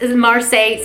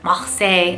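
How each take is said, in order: First: It is said with an American accent. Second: It is said with a French-style accent. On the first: The speaker calls it wrong. "that's not how, they don't say it like me" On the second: The speaker calls it right. "I think that's how they actually say it"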